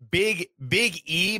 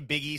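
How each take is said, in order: First: There is a small gap between the words. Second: The two words run together without a gap.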